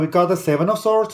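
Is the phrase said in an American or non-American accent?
American. It is said in an attempted American accent.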